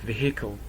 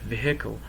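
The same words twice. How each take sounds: First: It is said with a Scottish pronunciation. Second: It is said with a Scottish pronunciation.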